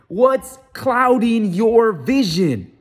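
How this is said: It is said forcefully, with confident emphasis.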